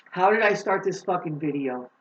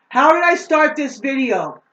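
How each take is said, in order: First: Said in the usual way. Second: Higher, much louder emphatic repeat. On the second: Shown as a demonstration. Vlogger repeating her opening question to viewers, now much louder. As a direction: belt the question out the second time.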